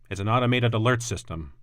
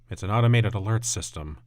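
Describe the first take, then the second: First: The line is spoken fairly clearly, barely mumbled. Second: The line is mumbled, low and indistinct. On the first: The speaker calls it wrong. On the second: The speaker calls it right.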